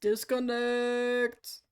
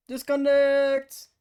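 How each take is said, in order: First: Drawn out slowly; slow drawn disconnect. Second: Loud slow call; loud drawn out. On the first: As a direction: stretch each syllable. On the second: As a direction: belt it out slowly. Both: Real, not acted. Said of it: "that tone of voice".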